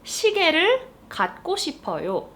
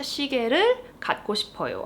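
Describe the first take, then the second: First: Fast, higher Korean sentence; fast example. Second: Fast Korean sentence; fast repeat. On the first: Teacher reading the example sentence quickly. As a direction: rattle it off. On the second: Teacher repeating the example sentence quickly. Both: Shown as a demonstration. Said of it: "let's look at this sentence".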